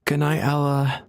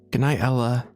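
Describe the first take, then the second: No difference in how they are said.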